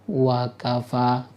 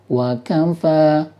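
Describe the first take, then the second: First: The pitch stays level across the whole word. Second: The pitch wavers slightly between wa and kafa. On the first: It sounds like a single word. The speaker calls it wrong. "Jadi kita nggak boleh baca datar. Wakafa nggak boleh" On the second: It shows there are two separate words. The speaker calls it right. "Jadi harus kita goyang dikit ya"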